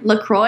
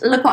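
First: The name is said with an American accent. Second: The name is said with a French accent.

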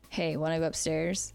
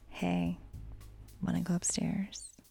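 First: It is said in a plain, unsexy tone. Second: It is said in a sexy, seductive tone.

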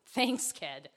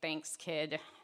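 First: It is said in a sincere tone. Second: It is said in a sarcastic tone. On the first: The thanks is heartfelt and genuine. "almost wanted to hug him" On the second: The thanks is mocking, not meant. "the sarcastic me wanted to be like"

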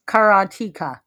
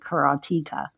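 First: The middle vowel sounds like the 'e' in karate. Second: The middle vowel is a long 'ee' sound. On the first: "That's how I usually pronounce it, which I don't think is right, but I was just like karate" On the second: "there's one consonant between the E and the A, which would make the E long"

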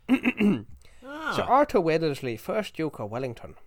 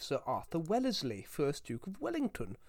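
First: It is said in a Dublin accent. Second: It is said in a posh English accent. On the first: "I should have tried it in a Dublin accent" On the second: "I should have actually said his name in not a posh English accent"

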